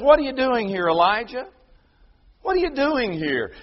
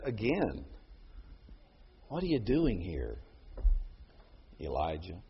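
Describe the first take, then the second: First: High, loud, commanding divine voice; God calling out to Elijah in power; strong and loud. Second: Low, soft and tender; God speaking gently to Elijah; gentle. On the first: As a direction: ask it with thundering strength. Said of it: "God shows him his strength". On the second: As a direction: ask it softly, like a breeze. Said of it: "a gentle breeze". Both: Acted.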